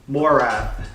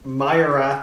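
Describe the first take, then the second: First: The first syllable sounds like 'mo'. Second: The first syllable sounds like 'my'. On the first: The speaker calls it right. "pronounce that as Morath" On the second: The speaker calls it wrong. "instead of Myra"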